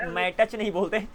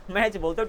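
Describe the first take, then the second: First: मैटच in two beats, "mat-ach"; t sounded. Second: मैच in one beat, ending in "ch"; no separate t in मैच; silent t. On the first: Teacher shows the wrong way, मैटच with t. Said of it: "टी silent है". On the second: Teacher gives the right way, one-beat मैच. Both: Shown as a demonstration.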